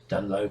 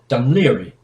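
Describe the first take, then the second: First: The name ends with a short 'loe' sound. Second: The name ends with a longer 'leary' sound. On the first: The speaker calls it wrong. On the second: The speaker calls it right.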